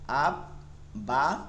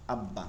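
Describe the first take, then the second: First: "আব, বা" split by a clear pause; syllable by syllable. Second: "আব্বা" in one piece, doubled b, low fall; joined reading. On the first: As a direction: say "আব, বা" as two held syllables, the second rising. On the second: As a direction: blend "আব্বা" into one word. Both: Shown as a demonstration. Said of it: "এভাবে প্রতিটা উদাহরণ আপনারা এখান থেকে পড়ে নেবেন".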